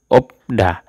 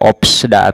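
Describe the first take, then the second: First: Only a p comes before da. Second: A p and an s come before da. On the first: The speaker calls it right. "Dibacanya itu opda" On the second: The speaker calls it wrong. "Tidak opsda ... Salah"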